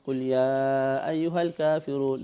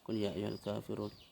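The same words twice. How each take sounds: First: It is said in a loud, full voice. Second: It is said quietly, under the breath. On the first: It is recited aloud for the congregation. "dengan suara yang ku, kuat" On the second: It is recited silently during the pause. "dalam keadaan sir"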